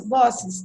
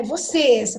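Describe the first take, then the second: First: "vossos" stressed on the first syllable, VO-; misplaced stress. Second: "Vocês" stressed on the final -cês; stress on last syllable. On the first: Teacher showing the wrong reading, first-syllable stress on "vossos". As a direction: hit the first syllable of "vossos", drop the last. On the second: Teacher showing the accented word, final stress on "Vocês". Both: Shown as a demonstration. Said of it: "não".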